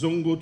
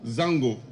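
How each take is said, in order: First: The first vowel sounds like 'o'. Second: The first vowel sounds like 'a'. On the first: This is the commonly used form. The speaker calls it wrong. "what we know as Zongo today" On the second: This is the original form. The speaker calls it right. "the actual pronunciation is Zango"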